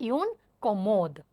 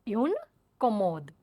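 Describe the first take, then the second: Both takes have the same delivery.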